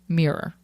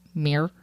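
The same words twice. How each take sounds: First: The word is spread over two syllables. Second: The word is squeezed into one syllable. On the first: This is the way most other places say it. "instead of" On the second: This is a typical Midwestern way of saying it. "we just smush it into one syllable"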